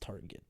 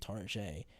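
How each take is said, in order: First: The ending is plain, like tar-get. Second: The ending sounds French, like tar-zhay.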